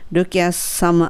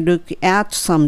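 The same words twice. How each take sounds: First: The t in at is dropped and linked. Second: The t in at is clearly pronounced. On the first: The speaker calls it right. "look at some でt は落ちるわけですね。" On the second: The speaker calls it wrong. "じゃなくて"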